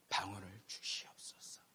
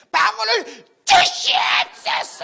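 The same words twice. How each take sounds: First: Soft, slow whispered plea; whispered prayer. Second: Slow, high, loud shouted plea; shouted prayer. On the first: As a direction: breathe the prayer softly over his head. 총장님이 기도해 주심. (총장님이 머리에 손 얹고 속삭이듯 하는 기도) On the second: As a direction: bellow the plea right in his face. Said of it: "제가 외쳤어요 목소리 큰 소리로". (총장님 코앞에서 느리고 높게 외치는 간청) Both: Retold or imitated.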